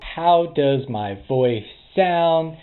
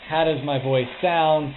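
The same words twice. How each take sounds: First: The voice is heard without background noise. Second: The voice is heard over background noise. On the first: "this is the sound of my voice with the new Anker Soundcore Spirit Dots two" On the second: "with ambient noise running in the background"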